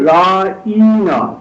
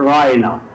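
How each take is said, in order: First: The middle vowel is stretched out long. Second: The middle vowel is short and not drawn out. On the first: O shepherd, you boorish oaf. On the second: Please be considerate of us.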